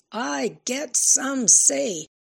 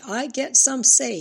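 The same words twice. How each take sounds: First: High, slow, loud, each word stretched; drawn-out scream. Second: High, loud scream at dad. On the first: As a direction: drag out every word in anger. Repeated scream, slower. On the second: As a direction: scream it at her father. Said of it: "she screamed". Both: A narrator's reading.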